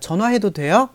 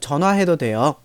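First: It is asked as a question, rising at the end. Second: It is said as a statement, ending flat or falling.

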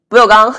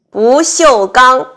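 First: The middle syllable is swallowed. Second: Every syllable is clearly pronounced.

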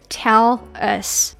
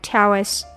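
First: The two words are said with a separation. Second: The two words run together without a break. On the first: "那本来应该是" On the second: "这里要连起来"

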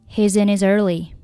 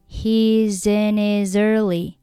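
First: The phrase is spoken faster. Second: The phrase is spoken slowly. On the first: "慢慢的加快语速。" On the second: "我们可以把速度放慢一点。"

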